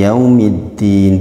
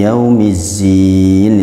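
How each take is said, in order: First: The middle consonant is a d sound. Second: The middle consonant is a z sound. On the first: It means the day of judgment. The speaker calls it right. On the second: It means the day of ornaments. The speaker calls it wrong.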